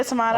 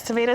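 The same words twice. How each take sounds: First: "tomato" said to-MAH-to; broad-A pronunciation. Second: "tomato" said to-MAY-to; long-A pronunciation. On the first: Chef comparing two ways of saying it, "tomato" as to-MAH-to. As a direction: say "tomato" with an AH in the middle. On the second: Chef comparing two ways of saying it, "tomato" as to-MAY-to. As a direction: say "tomato" with an AY in the middle. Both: Shown as a demonstration. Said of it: "why do I say tomato and not tomato".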